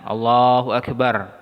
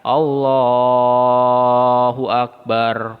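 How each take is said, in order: First: The vowels are held only briefly. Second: The vowels are stretched out very long. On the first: The speaker calls it right. "Dua harokat aja" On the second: The speaker calls it wrong.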